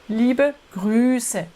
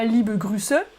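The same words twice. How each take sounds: First: The vowel in Grüße is held long. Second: The vowel in Grüße is cut short. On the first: The speaker calls it right. "mais ... le U est long" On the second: The speaker calls it wrong. "C'est pas"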